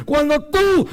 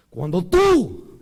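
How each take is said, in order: First: "tú" hit high and loud; stress on tú. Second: "tú" stressed, slow and drawn out. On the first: Preacher drilling the accent on tú into the flock. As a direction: punch the word "tú" hard. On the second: Preacher stressing tú to the congregation. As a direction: lean on the word "tú". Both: Shown as a demonstration. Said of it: "acento en la U".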